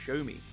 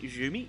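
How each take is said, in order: First: The name sounds like the words 'show me'. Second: The name does not sound like 'show me'. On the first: "kind of sounds like a show me" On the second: "there's me like Xiaomi"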